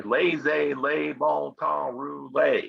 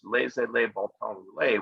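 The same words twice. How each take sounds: First: Slow Southern US drawl on the French phrase; crazy Cajun accent. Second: Said in the usual way. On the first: Retold or imitated. Teacher showing how New Orleans people say it, Southern US accent. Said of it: "with this crazy accent". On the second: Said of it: "in French".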